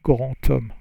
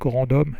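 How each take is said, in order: First: The words are linked with a T sound. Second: The words are linked with a D sound. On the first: The speaker calls it right. "you need to hear a T when you make the liaison" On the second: The speaker calls it wrong. "So it's not grand homme"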